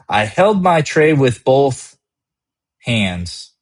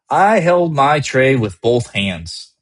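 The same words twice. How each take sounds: First: It breaks briefly between 'both' and 'hands'. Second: It flows without a break before 'hands'. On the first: The reader is made to lean forward. "Both hangs in the air before hands" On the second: The moment feels controlled and complete. "Each line is a complete step. The pace is steady"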